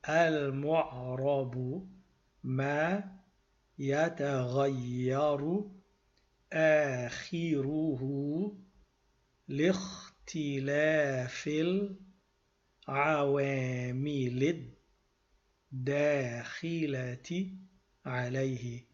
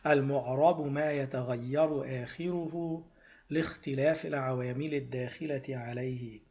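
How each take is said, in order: First: It is said slowly. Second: It is said at normal speed.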